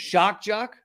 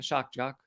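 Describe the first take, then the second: First: The phrase is said noticeably louder. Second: The phrase is said at normal volume.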